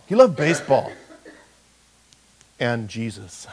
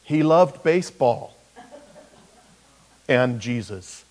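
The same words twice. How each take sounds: First: With a pause. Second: Mock epitaph with a comic pause; tombstone line. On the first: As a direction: hold the pause before and Jesus. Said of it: "And you have to pause". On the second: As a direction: land the joke on and Jesus. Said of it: "I'm gonna have that put on my headstone". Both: Shown as a demonstration.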